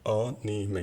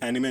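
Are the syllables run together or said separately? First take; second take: separately; run together. First: Each of the three syllables is pronounced separately. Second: The syllables are run together in one flow. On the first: The speaker calls it right. "ये तीन सिलेबल्स होते हैं, इन्हें अलग अलग प्रोनाउंस करते हैं" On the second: The speaker calls it wrong. "ये एनिमे नहीं होता है"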